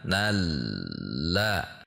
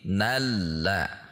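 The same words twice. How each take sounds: First: The word is said slowly. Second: The word is said at normal speed.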